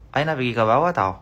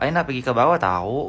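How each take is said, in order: First: The pitch stays flat on the last word. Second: The pitch rises on the last word. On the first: This is how people here say it. The speaker calls it right. "Kalau di sini" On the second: This is not how people here say it. The speaker calls it wrong. "Nggak, ... nggak kayak gitu"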